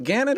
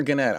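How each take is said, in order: First: Gannett said one possible way; unsure pronunciation. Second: Gannett said the other possible way; alternative pronunciation. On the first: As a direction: try out a reading of Gannett. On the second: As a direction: try a second reading of Gannett. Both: Shown as a demonstration. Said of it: "I, I don't know".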